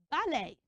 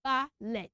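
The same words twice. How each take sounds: First: "ballet" as BA-LAY, silent T; AY ending. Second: "ballet" as BA-LET, short E; spelling pronunciation. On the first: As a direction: end "ballet" on a long AY. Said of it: "I'm going to say it as". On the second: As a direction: end "ballet" on a short ET, as spelt. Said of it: "that is not supposed to be". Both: Shown as a demonstration.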